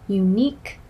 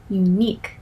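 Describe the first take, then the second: No difference in how they are said.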